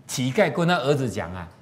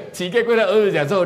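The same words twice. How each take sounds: First: Said in the usual way. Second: Livelier retelling. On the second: Shown as a demonstration.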